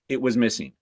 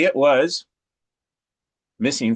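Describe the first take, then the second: First: The words flow on with no pause. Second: There is a dramatic pause after "was". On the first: The speaker calls it right. "No pause" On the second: The speaker calls it wrong. "We wouldn't say"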